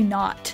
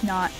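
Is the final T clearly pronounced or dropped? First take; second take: pronounced; dropped. First: The final T is clearly pronounced. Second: The final T is dropped or swallowed. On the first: "I don't say not" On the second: "we're not going to pronounce that T"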